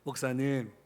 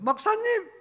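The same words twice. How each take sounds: First: The pitch falls at the end of the word. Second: The pitch rises at the end of the word. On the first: It sounds gentle and calm. The speaker calls it right. "내려라 ... 이렇게 하셔야 돼" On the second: It signals that something stressful is coming. The speaker calls it wrong. "말꼬리를 올리지 말고 ... 이러면 안 돼"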